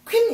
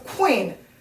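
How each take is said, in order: First: The start is clipped into one quick syllable. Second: An 'oo' sound glides into a long 'ee'. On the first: The speaker calls it wrong. "퀸 이렇게 얘기하면 아마 ... 잘 알아듣는 외국인들 많지 않을 거예요" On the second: The speaker calls it right. "약간 장으로 길게 연결해서 간다"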